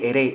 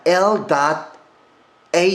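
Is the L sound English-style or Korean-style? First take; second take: Korean-style; English-style. First: The L is a light Korean-style flap. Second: The L is held firmly behind the teeth. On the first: The speaker calls it wrong. "어르신들이 대부분 발음 어떻게 하시죠? ... 그런 발음 없습니다" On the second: The speaker calls it right. "이 L을 정확하게 하는 겁니다"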